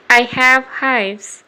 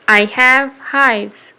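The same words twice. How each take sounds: The two takes are said the same way.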